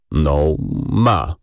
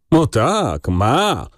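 First: Low, hesitant confirmation; interjecting. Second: Higher, exaggerated echo; mocking mimicry. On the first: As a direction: put in a low word for the boss. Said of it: "wtrącił Rzecki". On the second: Younger colleague parroting the clerk's defence, mocking. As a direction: parrot the other man with derision. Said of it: "przedrzeźniał go Mraczewski". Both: A narrator's reading.

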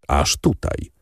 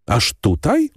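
First: Flat confirmation. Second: Higher, rising disbelief on "Aż tutaj?"; surprised question. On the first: Bandit confirms flatly. (spokojne, niższe potwierdzenie „Aż tutaj”) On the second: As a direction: ask it with raised, incredulous pitch. Albert asks, surprised. (zdziwione pytanie „Aż tutaj?” z wznoszącą intonacją) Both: A narrator's reading.

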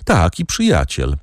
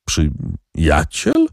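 First: Said in the usual way. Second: Slow, doubting question on Przyjaciel; incredulous echo. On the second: A narrator's reading. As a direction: stretch out Przyjaciel in disbelief.

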